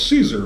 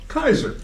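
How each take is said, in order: First: The word begins with an s sound. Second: The word begins with a k sound. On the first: This is how English speakers read it. The speaker calls it wrong. "us Anglos, we see the C A E and we say, oh, it's Caesar" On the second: This is the original Latin way. The speaker calls it right. "But of course, it's Kaiser"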